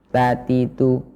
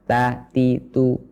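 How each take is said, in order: The two takes are said the same way.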